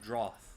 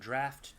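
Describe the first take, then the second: First: The vowel sounds like the vowel in 'out'. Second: The vowel sounds like the vowel in 'laughed'. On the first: The speaker calls it wrong. "I don't think it's pronounced as drought" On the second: The speaker calls it right. "Oh, draft"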